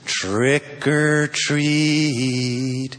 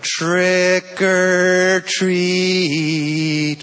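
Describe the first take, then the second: First: It is said softly and nicely. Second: It is said a little louder.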